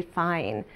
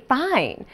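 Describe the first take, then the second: First: Low-key, softer throwaway reply; subdued brush-off. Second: Higher-pitched, mock-irritated reply; insistent brush-off. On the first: Retold or imitated. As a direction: answer quietly to close the subject. Brushing off repeated question. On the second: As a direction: push the word up, falling away at the end. Repeated question, growing irritation.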